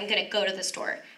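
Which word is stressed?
go. The stress falls on the word go. "they usually put the emphasis on the action word in a sentence"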